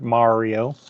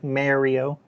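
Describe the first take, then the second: First: Mario is said with an American accent. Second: Mario is said with a Canadian accent. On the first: "I always loved the American pronunciation. It just sounds better" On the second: "the Canadian pronunciation does sound like Mario"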